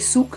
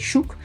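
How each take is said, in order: First: The word begins with a plain s sound. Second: The word begins with a sh sound. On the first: The speaker calls it wrong. "We don't say souk" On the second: The speaker calls it right. "we say shuk"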